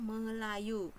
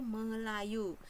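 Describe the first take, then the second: First: The word is read with a 'y' sound. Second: The same.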